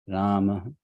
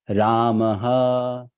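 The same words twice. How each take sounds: First: The final ha is said soft and light. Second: The final ha is said hard and strong. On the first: The speaker calls it right. "That ha is very soft" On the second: The speaker calls it wrong. "It's not Ramaha"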